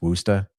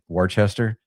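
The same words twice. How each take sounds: First: It is said shortened, in a local accent. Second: It is said as spelled, sounding every syllable. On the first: The speaker calls it right. "but it's Worcester. You gotta say it with the accent" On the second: The speaker calls it wrong. "it actually looks like it's supposed to be spelled or pronounced"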